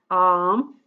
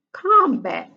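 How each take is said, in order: First: Said in the usual way. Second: "combat" said higher and louder, first syllable punched; emphatic word. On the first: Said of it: "teacher reading the word". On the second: Shown as a demonstration. Teacher reading the new word aloud to the class, emphatic. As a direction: hit "combat" clearly the second time. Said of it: "second, emphatic reading".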